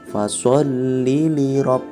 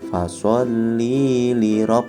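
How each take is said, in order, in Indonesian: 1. Vokal dibaca pendek sepanjang bacaan. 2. Vokal dibaca panjang. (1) "Tapi langsung fasholli li rabb" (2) "bukan dibaca fasholli li rabb, bukan seperti itu"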